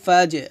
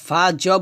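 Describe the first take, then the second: First: The final bounce is light and drops down. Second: The final bounce is thick and heavy. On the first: The speaker calls it right. "আওয়াজ নিচে নামবে" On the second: The speaker calls it wrong. "এটা হবে না ফা জ বলা যাবে না তাহলে কিন্তু কফ এবং তর মতো হয়ে যাবে"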